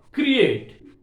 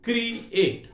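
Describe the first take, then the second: First: Said in the usual way. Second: "create" high, cut into two separate beats; split into syllables. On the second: Shown as a demonstration. Teacher counting two syllables for students, "create" split in two. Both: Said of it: "Two syllables are there".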